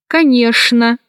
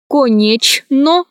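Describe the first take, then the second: First: Конечно said as канешна; CHN as SHN. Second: Slow конечно with full О and Ч; spelling pronunciation. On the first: Teacher showing how конечно is pronounced, SH sound. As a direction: use Ш for Ч in конечно. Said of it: "произносится". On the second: Teacher showing how конечно is written, spelled-out reading. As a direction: split конечно as ко-неч-но. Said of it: "Пишется". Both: Shown as a demonstration.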